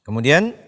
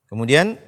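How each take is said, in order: The two takes are said the same way.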